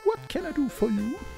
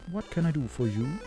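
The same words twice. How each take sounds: First: It is said in a different put-on voice. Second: It is said in one voice.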